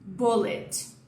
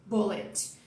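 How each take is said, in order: First: The first vowel is short and rounded. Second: The same.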